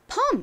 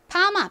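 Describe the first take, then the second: First: It is said as one syllable, perm. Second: It is said as two Korean syllables, pa-ma. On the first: Hairdressers abroad will understand it. The speaker calls it right. "펌 이렇게 발음을 하면 알아들을 거예요" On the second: Hairdressers abroad will not understand it. The speaker calls it wrong. "파마, 빠마 뭐 이렇게 하면은 못 알아듣겠지만"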